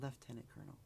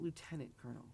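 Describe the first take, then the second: First: Lieutenant is said in the Canadian way. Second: Lieutenant is said in a non-Canadian way. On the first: The speaker calls it right. "in Canada it's pronounced lieutenant colonel" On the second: The speaker calls it wrong. "the announcer, pronounced it lieutenant colonel"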